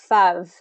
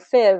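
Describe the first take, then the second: First: The vowel is a short 'uh' sound. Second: The vowel is a short 'ih' sound. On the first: "if you don't get enough movement with that long, long I vowel, it'll sound like fuv" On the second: "or fiv, or something like that with one of these shorter vowels"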